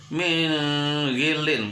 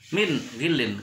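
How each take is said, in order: First: The n sound is blurred, not distinct. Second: The n sound is pronounced distinctly. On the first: The speaker calls it wrong. "tidak boleh dibaca min gilin" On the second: The speaker calls it right. "harus jelas min gilin"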